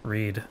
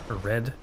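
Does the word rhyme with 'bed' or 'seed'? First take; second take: seed; bed. First: The vowel is long, like in 'seed'. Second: The vowel is short, like in 'bed'. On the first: "one word have two different pronunciations" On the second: "I assume it's red"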